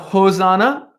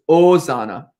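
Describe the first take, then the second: First: The word begins with an audible H sound. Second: The word begins directly with a vowel. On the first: The speaker calls it wrong. "it's not Hosanna" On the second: The speaker calls it right. "you don't pronounce the H. So it's Hosanna"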